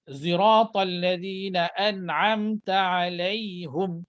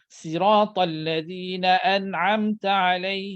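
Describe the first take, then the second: First: Sirat begins with a z-like rounded sound. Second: Sirat begins with a light plain s sound. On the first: "Ada baca dengan muncung" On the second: "Ada baca dengan sin"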